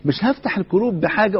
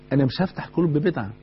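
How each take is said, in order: First: هفتح raised and stressed, a firm rising repeat; the preacher insisting he won't open hearts that way; emphatic repetition. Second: Said in the usual way. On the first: Real, not acted.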